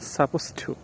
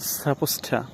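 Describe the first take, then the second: First: The word 'to' is said fully as 'too'. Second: The words blend, and 'to' becomes 'ta'.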